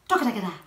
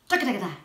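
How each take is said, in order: No difference in how they are said.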